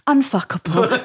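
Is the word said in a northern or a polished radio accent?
radio. It is said in a polished radio-presenter accent. It sounds more palatable. "Whereas if I was on radio, I'd go"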